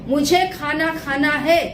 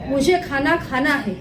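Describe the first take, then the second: First: It is said with strong, forceful intent. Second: It is said in a plain, ordinary tone. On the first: The speaker's desire carries power and gets results. "उसका जो intention है, जो उसकी इच्छा है, उसमें power है" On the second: The speaker is simply stating a wish. "साधारण तरीके से"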